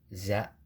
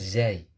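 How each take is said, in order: First: The letter name ends in a plain a. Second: The letter name ends in an ai sound. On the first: The speaker calls it right. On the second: The speaker calls it wrong. "bukan zai"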